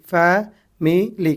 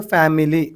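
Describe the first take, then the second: First: family very slowly in three separate beats; syllable by syllable. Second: Said in the usual way. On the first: Shown as a demonstration. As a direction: split family as fa, mi, li with gaps. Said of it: "कितने syllables".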